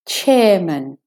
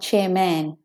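First: The second syllable has a reduced schwa vowel. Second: The second syllable has a full vowel. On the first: The speaker calls it right. "the at is de-stressed to be a schwa" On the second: The speaker calls it wrong. "not chairman"

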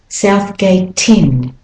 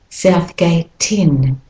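The two takes are said the same way.

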